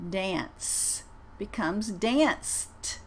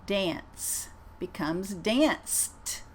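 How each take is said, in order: First: "danced" drawn out very slowly with a clear final T; crisp T at the end of "danced"; teacher models "danced" for students, very slow. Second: "danced" repeated very slowly with a crisp T; second very slow model of "danced". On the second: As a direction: land the T in "danced". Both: Shown as a demonstration. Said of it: "I'm gonna say them twice".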